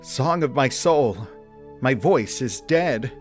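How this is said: It is said with a hint of panic.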